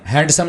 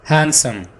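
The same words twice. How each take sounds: First: The d sound is pronounced. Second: The d sound is silent. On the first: The speaker calls it wrong. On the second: The speaker calls it right.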